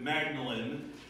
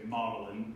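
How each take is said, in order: First: The name is pronounced as it is spelled. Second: The name is pronounced the traditional British way. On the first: "If you saw it spelled, you would pronounce it" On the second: "proper and snooty and British about it"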